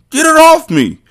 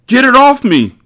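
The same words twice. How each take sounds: First: Even higher choked, garbled plea; strangled panic, pitched up. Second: Choked, very high panicked cry; strangled scream, far higher; garbled voice. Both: Acted. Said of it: "Poke said in a garbled voice".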